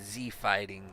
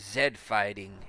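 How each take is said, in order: First: Z is said the American way, as zee. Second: Z is said the British way, as zed.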